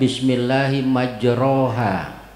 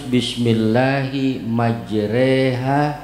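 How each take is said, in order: First: The syllable after r has an open 'a' vowel. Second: The syllable after r has an 'e' vowel. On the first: The speaker calls it wrong. "Jangan baca" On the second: The speaker calls it right. "tapi harus"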